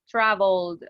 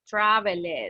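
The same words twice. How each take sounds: First: The ending adds no extra syllable. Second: The ending is said as an extra syllable. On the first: The speaker calls it right. "Travel in the past will be traveled" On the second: The speaker calls it wrong. "we never say, you see, traveled"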